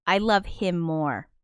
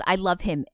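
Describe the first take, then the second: First: Slow, leaning on love and more; out-love the chatter, slowly; stress on more. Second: Said in the usual way. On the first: Real, not acted. Streamer answering a chat message, slowly stressing love him more. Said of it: "And I'm like". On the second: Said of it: "Sean Solo Beats says".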